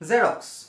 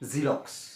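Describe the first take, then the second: First: The first vowel sounds like 'eh'. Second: The first vowel sounds like 'ee'. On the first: The speaker calls it wrong. "আমি কওঁ জেৰক্স। আচলতে জেৰক্স নহয়" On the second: The speaker calls it right. "আচলতে ... জিৰক্স"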